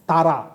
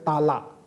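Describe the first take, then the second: First: The middle consonant is an r sound. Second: The middle consonant is an l sound.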